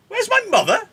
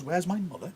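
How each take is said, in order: First: Very high, loud screech; outraged disbelief. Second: Softer, higher puzzled question; mild disbelief. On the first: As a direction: shriek the question in disbelief. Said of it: "Juliet can't believe that". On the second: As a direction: repeat it as if unable to believe it. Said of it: "Romeo and Juliet can't believe that". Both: Acted.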